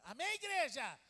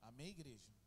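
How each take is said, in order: First: It is said louder, with a raised voice. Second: It is said at a normal, quieter volume.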